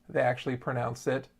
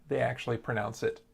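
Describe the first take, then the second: No difference in how they are said.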